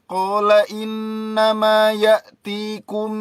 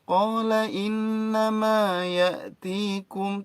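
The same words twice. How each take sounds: First: The pitch stays flat and level throughout. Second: The pitch moves up and down throughout. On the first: The speaker calls it wrong. "Ya lempeng kayak kayak orang apa?" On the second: The speaker calls it right. "tetap ada naik turun naik turun naik turun"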